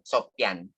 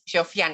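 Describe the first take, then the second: First: The middle consonant is a p sound. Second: The middle consonant is an f sound. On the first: The speaker calls it right. "Jadi bukan F, pelafalannya adalah eh, Sopian" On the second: The speaker calls it wrong. "salah melafalkan. Eh, biasanya Sof- Sofian gitu kan"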